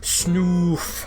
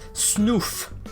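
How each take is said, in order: First: The vowel is drawn out long. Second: The vowel is short and quick.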